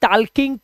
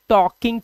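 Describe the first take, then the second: First: The L sound is pronounced in the word. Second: The L sound is left out of the word. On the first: The speaker calls it wrong. "So I am not saying" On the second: The speaker calls it right. "I am saying"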